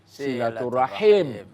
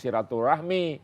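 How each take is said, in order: First: The word ends with the sounds 'rahim'. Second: The word ends with the sounds 'rahmi'. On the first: It means keeping ties of kinship. The speaker calls it right. "Yang betul silaturahim" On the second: It sounds like a word for a womb disease. The speaker calls it wrong. "Banyak orang bilang silaturahmi"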